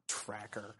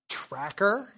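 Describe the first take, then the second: First: "Tracker" very low and hushed; muttered jab. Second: "Tracker?" with a sharply rising question; incredulous echo. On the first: Lecturer mimicking Boromir's lingering grudge, muttered jab. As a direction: slip the word out under the breath. Repeats the insult as an aside. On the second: Lecturer catching Boromir's barb at Aragorn, incredulous. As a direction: question the word in mock disbelief. Echoes Boromir's barbed word, astonished. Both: Acted.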